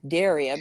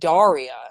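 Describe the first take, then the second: First: The first syllable has an 'e' vowel. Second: The first syllable has an 'a' vowel. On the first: The speaker calls it right. "It's Daria because there's a D E" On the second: The speaker calls it wrong. "a lot of people thought it would be like Daria"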